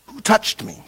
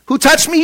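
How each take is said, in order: First: Soft, nearly whispered question; hushed question. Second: High-pitched mock disbelief; incredulous echo. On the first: Retold or imitated. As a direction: ask it under your breath, acting it out. Jesus stops and asks the crowd. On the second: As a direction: throw the question back, high and incredulous. Incredulous retort to Jesus' question.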